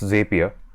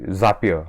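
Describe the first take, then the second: First: The first syllable does not sound like 'zap'. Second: The first syllable sounds like 'zap'. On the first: "It's a single P, so I'm guessing it's Zapier" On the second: "etymologically, Zapier makes more sense because uh, like Zap"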